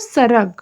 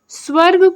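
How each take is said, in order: First: It starts with a simple s. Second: It starts with the cluster sv. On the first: This is the Chhattisgarhi form. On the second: This is the standard Hindi form.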